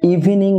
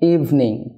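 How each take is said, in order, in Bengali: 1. শব্দটি তিনটি সিলেবলে উচ্চারণ করা হয়। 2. শব্দটি দুটি সিলেবলে উচ্চারণ করা হয়। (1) "থ্রি সিলেবল না হয়ে" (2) "টু সিলেবল হবে"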